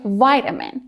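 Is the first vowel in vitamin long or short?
long. The first vowel is a long I sound. "Americans say vitamin with a long I"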